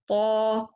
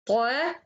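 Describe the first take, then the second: First: The syllable sounds heavy and full. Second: The syllable sounds light and thin. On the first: The speaker calls it right. "You should to say" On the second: The speaker calls it wrong. "don't say ta"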